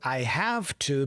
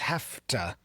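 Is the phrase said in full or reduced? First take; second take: full; reduced. First: Each word is said fully and clearly. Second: The words are reduced and blended together.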